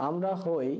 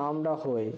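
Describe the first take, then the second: No difference in how they are said.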